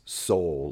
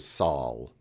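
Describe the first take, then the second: First: The vowel sounds like the one in 'soul'. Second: The vowel sounds like the one in 'saw'. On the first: The speaker calls it wrong. "it is not pronounced soul, like S-O-U-L" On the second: The speaker calls it right. "It's more pronounced like saw sound"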